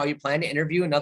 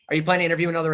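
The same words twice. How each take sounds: First: The question sounds relaxed and friendly. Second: The question sounds pushy and interrogating. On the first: The speaker calls it right. "if I change the tonality" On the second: The speaker calls it wrong. "That's interrogative"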